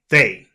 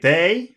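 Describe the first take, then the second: First: The pitch falls on the word. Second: The pitch rises on the word. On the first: The speaker is confident and expects agreement. The speaker calls it right. "say they" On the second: The speaker is unsure and asking. The speaker calls it wrong. "Don't go up with, don't say they"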